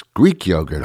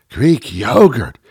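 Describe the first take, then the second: First: Said in the usual way. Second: Slow, hammed-up reverence; mock awe. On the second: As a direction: draw out "Greek yogurt" as something grand. Mocking the reverence for it.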